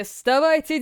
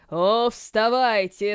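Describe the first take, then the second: First: Rising call. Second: Drawn out, slow summons; slow drawn-out call. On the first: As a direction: lift вставайте up into a call. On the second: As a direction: stretch out вставайте slowly. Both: Acted. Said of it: "словно издалека, послышался голос".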